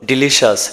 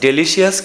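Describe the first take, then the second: First: The word ends with a short 'shus' sound. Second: The word ends with a longer 'shee-us' sound. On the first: The speaker calls it right. "এটার উচ্চারণ হলো ডিলিশাস" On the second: The speaker calls it wrong. "ডেলিশিয়াস কিন্তু নয়"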